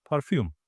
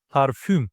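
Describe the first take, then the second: First: Said in the usual way. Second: Parfüm with a front rounded Ü in the last syllable; Turkish pronunciation. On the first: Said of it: "Without perfume". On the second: Shown as a demonstration. Teacher giving the Turkish word parfüm, ending on rounded front Ü. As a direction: say parfüm the Turkish way, "par-FÜM". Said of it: "is Ü. It's a front vowel".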